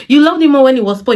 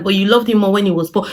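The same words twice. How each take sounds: First: Higher, louder and faster mockery; sarcastic taunting repeat; sarcastic refrain. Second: Said in the usual way. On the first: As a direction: throw her words back at her.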